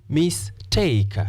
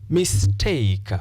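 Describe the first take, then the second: The two takes are said the same way.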